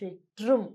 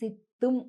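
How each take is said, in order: First: The middle sound is a t followed by r. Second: The middle sound is a plain double t. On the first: This is how Tamil speakers say it. "తమిళులు ఎలా పలుకుతారో సిట్రుం" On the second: This is how it is written in Telugu books. "మామూలుగా తెలుగులో పుస్తకాలలో ఇక్కడ సిత్తుం అనుంటుంది"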